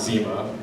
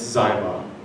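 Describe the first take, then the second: First: The first vowel sounds like 'ee'. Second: The first vowel sounds like 'eye'. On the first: The speaker calls it wrong. "It's not Zima" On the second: The speaker calls it right. "it's Zyma"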